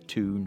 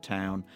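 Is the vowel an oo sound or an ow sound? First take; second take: oo sound; ow sound. First: It has an oo vowel, Newcastle style. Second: It has an ow vowel, the speaker's own.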